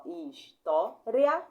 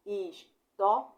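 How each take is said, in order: First: História slowly in three beats, "ria" held together; teacher's loud, slow three-part história; split syllables. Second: História slowly in four beats, "his-tó-ri-a"; deliberate syllable-by-syllable história, i and a apart; i split from a. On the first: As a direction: break história into his, tó, ria, lifting the end. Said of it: "ou pode ser separado assim". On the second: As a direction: break the end of história into separate "ri" and "a". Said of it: "separando o i do a". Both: Shown as a demonstration.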